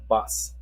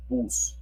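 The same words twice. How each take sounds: First: "bus" with English short uh vowel; English pronunciation. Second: "bus" with a Spanish oo vowel; Spanish pronunciation. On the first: Teacher shows what to avoid, English vowel in "bus". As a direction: say "bus" the English way, rhyming with fuss. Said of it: "Remember, it's not bus". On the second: Teacher corrects the vowel, Spanish oo in "bus". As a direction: say "bus" like "boos", pure Spanish u. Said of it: "it's bus in Spanish". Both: Shown as a demonstration.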